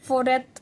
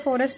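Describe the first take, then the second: First: No s sound is pronounced before the t. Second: An s sound is pronounced before the t. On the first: "ऑक्सा लगने के बाद इसको फोरेट बोला जाएगा" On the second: "ऑक्सा लगने से पहले जो फॉरेस्ट है उसको फॉरेस्ट बोला जाता है"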